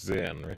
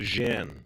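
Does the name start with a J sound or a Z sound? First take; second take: Z sound; J sound. First: The name starts with a Z sound. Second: The name starts with a J sound. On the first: The speaker calls it wrong. "it's not actually pronounced Zen" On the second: The speaker calls it right. "it's more of a Jen, right? It's more of a J sound"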